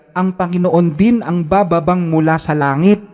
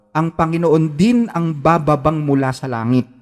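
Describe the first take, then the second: Both takes have the same delivery.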